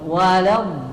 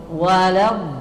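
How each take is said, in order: No difference in how they are said.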